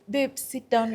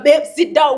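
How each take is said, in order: First: It is said in a soft, gentle tone. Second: It is said in a harsh, commanding tone. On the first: A request made with care. The speaker calls it right. "a man can lead na upole" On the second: An order that must be obeyed. The speaker calls it wrong. "we si nimekwambia ukae wewe"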